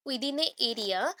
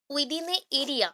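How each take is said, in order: First: Within a area stretched very slowly, words spaced apart; slow, spaced-out repeat. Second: Said in the usual way. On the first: Shown as a demonstration. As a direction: draw out within a area word by word.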